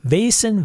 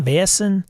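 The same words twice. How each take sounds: First: "Vaesen" said as VAY-sen; two-syllable pronunciation. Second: "Vaesen" said as VAY-ess-en; three-syllable pronunciation. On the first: Streamer comparing pronunciations of the game "Vaesen", two-syllable VAY-sen. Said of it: "I've heard it". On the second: Streamer comparing pronunciations of the game "Vaesen", three-syllable VAY-ess-en. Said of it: "I've been told Vaesen, pronounced Vaesen". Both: Shown as a demonstration.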